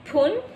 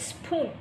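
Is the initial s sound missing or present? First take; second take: missing; present. First: The word begins without the s sound. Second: The word begins with the s sound. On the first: "poon instead for the word spoon" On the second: "the sound of the letter S has been deleted"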